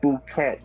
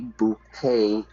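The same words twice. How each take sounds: First: The final t is sounded. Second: The final t is silent. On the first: The speaker calls it wrong. "not bouquet" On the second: The speaker calls it right. "we don't pronounce the T"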